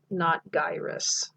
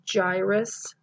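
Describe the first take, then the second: First: The word begins with a hard G sound. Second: The word begins with a soft J sound. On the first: The speaker calls it wrong. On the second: The speaker calls it right. "gives it that soft J sound"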